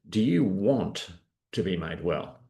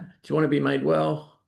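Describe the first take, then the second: First: It sounds pointed and probing, like a challenge. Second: It sounds light, like a casual friendly offer. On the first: It tests how much the person really wants it. "Instead, it was" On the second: It is a simple, easy offer. "It could just be like, "Do you want a coffee?"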